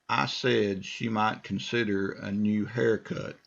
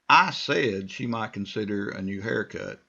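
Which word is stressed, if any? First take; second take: none; I. First: No word is given special stress. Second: The word I is strongly stressed.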